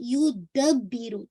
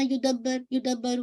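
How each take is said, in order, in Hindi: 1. b की आवाज़ खिंची हुई है और साफ़ तौर पर डबल है। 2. b की आवाज़ छोटी है, डबल नहीं। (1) "मेक श्योर आपने बा को ट्वाइस हिट करना है" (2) "ऐसा नहीं पढ़ना"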